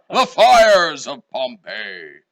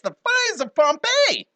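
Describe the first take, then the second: First: It is said dramatically, like a big eruption. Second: It is said lightly in a high-pitched voice. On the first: The speaker calls it right. "contrasting what I had done earlier" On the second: The speaker calls it wrong. "It sounds silly that way. ... with that high pitched voice"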